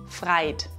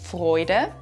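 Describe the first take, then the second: First: The vowel is 'ei', as in the dialect. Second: The vowel is 'oi', as in standard German. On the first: "das zu Freit wird" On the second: "Hier wird aus Oi ein Ei"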